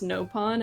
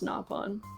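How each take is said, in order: First: The first vowel is an American-style 'oh' sound. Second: The first vowel is a non-American, non-'oh' sound. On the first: This is how one game pronounces it. "that's the only game where they pronounce it as no pawn" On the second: This is how all other games pronounce it. "Every other game, they pronounce it as na pawn"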